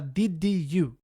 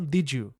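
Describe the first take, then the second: First: An extra i vowel separates did from you. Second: Did runs straight into you with no vowel. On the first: The speaker calls it wrong. "Muita gente que tá começando tem o vício de falar did you" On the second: The speaker calls it right. "para tirar esse i que a gente acrescenta na pronúncia"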